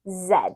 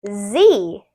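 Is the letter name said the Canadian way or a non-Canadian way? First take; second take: Canadian; non-Canadian. First: The letter name is said the Canadian way. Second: The letter name is said the non-Canadian way.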